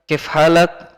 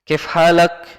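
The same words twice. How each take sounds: First: It is said in reduced Egyptian colloquial form. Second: It is said in reduced Egyptian colloquial form.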